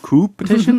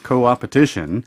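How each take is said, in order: First: The word has no 'op' syllable after 'co'. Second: The word has an 'op' syllable after 'co'. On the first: The speaker calls it wrong. "if you didn't know how to pronounce it, you might think" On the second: The speaker calls it right. "No, it's co-opetition"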